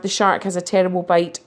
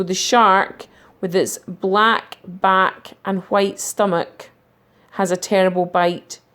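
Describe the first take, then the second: First: Said in the usual way. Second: Slow, with a clear pause at each comma. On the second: Shown as a demonstration. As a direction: read it slowly, pausing around the middle section. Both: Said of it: "So you could just have".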